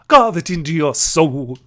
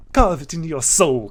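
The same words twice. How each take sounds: First: Much louder, slow, each word hammered; loud slow sparrow command. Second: Louder, firm warning; stern sparrow voice. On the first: Sparrow repeating her motto, loud and slow. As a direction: bellow the motto slowly. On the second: Sparrow lecturing the passenger, firm and louder. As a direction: lay down the law to the kid. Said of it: "What am I doing with this voice?". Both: Acted.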